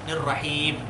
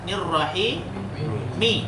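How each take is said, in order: First: The word ends on a bare m consonant. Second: The word ends with a short i vowel. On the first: This is the form when stopping at the end. "mi-nya ini berubah menjadi sukun" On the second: This is the full form without stopping. "Aslinya apa?"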